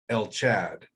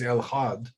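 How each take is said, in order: First: The second word begins with a ch sound. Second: The second word begins with an h sound. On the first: The speaker calls it wrong. "they say El Chad" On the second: The speaker calls it right. "there's no C H sound in Hebrew. It is El Had"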